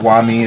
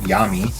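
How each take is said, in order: First: The name begins with a W sound. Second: The name begins with a Y sound. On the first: The speaker calls it wrong. "I always pronounced it Wami as well" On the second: The speaker calls it right. "it's actually Yami"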